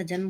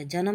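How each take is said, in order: First: Said in the usual way. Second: जन्म split as ja-nam; wrong pronunciation. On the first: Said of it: "होता है". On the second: Shown as a demonstration. Teacher rejecting a mistake, जन्म said ja-nam. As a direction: add a vowel before the m of जन्म. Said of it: "नहीं होता".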